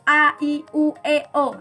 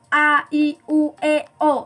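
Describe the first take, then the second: The two takes are said the same way.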